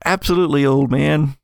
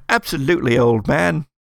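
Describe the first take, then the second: First: Fake British accent. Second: A light, hammed-up fake British accent. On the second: Shown as a demonstration. GM repeats the NPC's farewell in mock British accent. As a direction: toff saying old chap, mildly put on. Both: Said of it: "a kind of a fake British accent".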